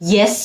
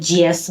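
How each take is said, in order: First: The word begins with a y sound. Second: The word begins with a j sound. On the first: The speaker calls it right. "ইয়েস না বলে" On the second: The speaker calls it wrong. "একটা জা sound আসে ওদের উত্তরের শুরুতে"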